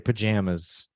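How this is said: It is said with an American pronunciation. "most Americans say pajamas"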